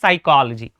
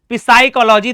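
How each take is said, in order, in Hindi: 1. शब्द सीधे S की आवाज़ से शुरू होता है। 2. शब्द की शुरुआत में एक साफ़ P की आवाज़ सुनाई देती है। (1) "क्योंकि पी साइलेंट है" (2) "तो ऐसा नहीं पढ़ते"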